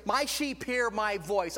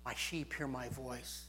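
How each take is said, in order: First: Loud preached scripture. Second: Soft hushed scripture. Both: Acted.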